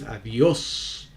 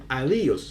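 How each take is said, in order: First: "adiós" stressed on the last syllable, a-DIÓS, drawn out slowly; stress on final syllable. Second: "adiós" stressed wrongly on the I, as A-DÍ-os; acento errado. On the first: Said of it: "si dices adiós". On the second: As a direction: say "adiós" with the stress moved back onto DI. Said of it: "tú no dices adiós". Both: Shown as a demonstration.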